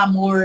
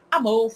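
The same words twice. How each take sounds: First: "amor" with a retroflex caipira R at the end. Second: "amor" ending on stressed "ô", R barely there; local soft R. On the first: Teacher showing what Acre doesn't say, caipira R. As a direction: curl the final R of "amor". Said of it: "que nem caipira". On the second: Teacher showing how Acre speaks, soft R. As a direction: say "amor" like "amôh". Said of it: "a gente fala". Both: Shown as a demonstration.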